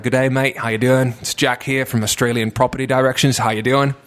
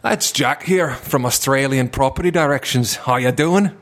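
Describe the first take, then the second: First: Put-on cheery Aussie sales-call accent, a bit louder; sling it like a chirpy Australian cold-caller. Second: Put-on slower English with a different playful accent; another put-on accent. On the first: Estate agent jokingly cold-calling clients in an Australian accent. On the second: Call-centre joker redoing his pitch in another accent. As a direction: drag the intro out in a new mock accent. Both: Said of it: "tein paljon eri puheluita eri aksenteille".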